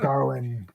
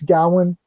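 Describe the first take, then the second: First: The first syllable has an r sound. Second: The first syllable has no r sound. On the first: The speaker calls it wrong. "where's the R from?" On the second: The speaker calls it right. "learn how to pronounce it"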